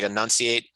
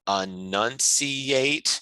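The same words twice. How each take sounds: First: The word is said quickly with slurred sounds. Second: Each syllable of the word is pronounced distinctly. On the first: The speaker calls it wrong. "instead of like" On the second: The speaker calls it right. "enunciating can help"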